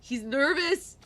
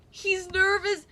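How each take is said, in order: First: Said in the usual way. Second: Higher, sing-song tease on nervous; playful higher mock teasing. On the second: Real, not acted. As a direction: tease the word nervous, pitched up. Repeats line, higher teasing take.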